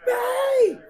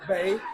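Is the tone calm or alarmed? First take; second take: alarmed; calm. First: It is said in an urgent, alarmed tone. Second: It is said in a calm, soothing tone.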